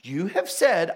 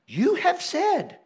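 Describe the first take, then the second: First: Said in the usual way. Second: High, slow, pointed "You have said"; throwing words back. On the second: Retold or imitated. Moses throwing God's words back, pointed and slow. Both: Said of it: "he throws God's words right back to him".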